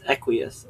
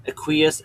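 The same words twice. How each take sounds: First: Equius as EK-wee-us; first-syllable stress. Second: Equius as uh-KWEE-us; second-syllable stress. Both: Shown as a demonstration. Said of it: "difference between pronunciations".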